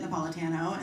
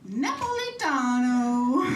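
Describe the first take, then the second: First: It is said in a plain American accent. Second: It is said in an exaggerated Italian accent.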